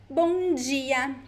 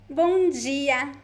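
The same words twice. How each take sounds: No difference in how they are said.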